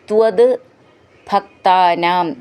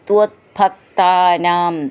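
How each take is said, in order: First: The two words are said as separate words. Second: The two words run together as one word.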